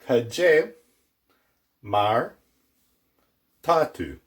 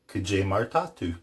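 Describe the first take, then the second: First: The phrase is said slowly and deliberately. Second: The phrase is said quickly at normal speed.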